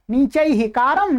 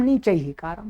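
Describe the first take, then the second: First: नीचैः कारम slowly, with कारम kept up at usual pitch; accent contrast, first form. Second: नीचैः कारम dropped much lower and softer; accent contrast, second form. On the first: Teacher showing that only the accent differs, कारम held up. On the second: Teacher showing that only the accent differs, नीचैः कारम said low. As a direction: lift the end of नीचैः, keep the phrase low. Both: Shown as a demonstration. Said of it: "स्वर का भेद बढ़ेगा".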